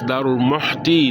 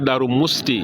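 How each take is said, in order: First: The second word has an 'h' sound inside. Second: The second word has an 's' sound inside. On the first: The speaker calls it right. "it's Darul Muhti" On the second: The speaker calls it wrong. "it's not Darul Musti"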